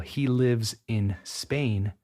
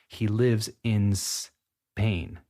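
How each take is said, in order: First: The s sound starts the word Spain separately. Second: The s sound is linked to the word before.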